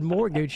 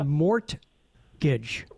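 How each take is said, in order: First: The T sound is silent. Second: The T sound is clearly pronounced. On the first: "Why is the T in mortgage silent?" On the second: "it should be mortgage"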